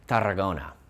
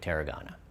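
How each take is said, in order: First: The name is said with a Spanish accent. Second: The name is said with an English accent. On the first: This is how local people say it. "as the locals would call it" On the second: The speaker avoids a weak Spanish accent. "I'm just going to stick with Tarragona"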